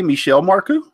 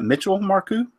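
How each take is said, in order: First: "Michel Marcoux" with Michel said the French way, mee-SHELL; French "Michel", stress on the end, "Marcoux" as mar-KOO. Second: "Mitchell Marcoux" with Mitchell said like the English name, MITCH-ell; English-style "Mitchell" in "Mitchell Marcoux"; wrong Mitchell. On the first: Host corrected by panel, saying "Michel" the French way. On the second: Host guessing the viewer's name, "Mitchell" the English way. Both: Shown as a demonstration. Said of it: "If we're going French, you should go all the way".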